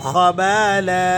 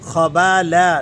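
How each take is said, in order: First: The word ends on a long 'a' vowel. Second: The same.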